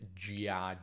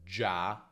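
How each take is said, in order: First: The i is sounded as its own vowel. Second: The i is silent, one syllable. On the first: The speaker calls it wrong. "non gia" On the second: The speaker calls it right. "la I non si pronuncia"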